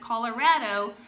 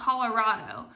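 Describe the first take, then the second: First: The 'ra' vowel sounds like the one in 'rad'. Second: The 'ra' vowel does not sound like 'rad'. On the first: The speaker calls it right. "it's Colorado ... like they're rad" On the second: The speaker calls it wrong. "not Colorado"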